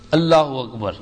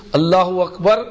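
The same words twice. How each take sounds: First: اللہ اکبر falling in pitch to a close; second takbir. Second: اللہ اکبر with اکبر rising at the end; first takbir. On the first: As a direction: let اکبر drop low, completing the pair. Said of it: "دوسری تکبیر رکوع کی کہے". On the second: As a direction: call اللہ اکبر firmly, leaving اکبر lifted and open. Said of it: "پہلی تکبیر تحریمہ کی کہے". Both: Shown as a demonstration.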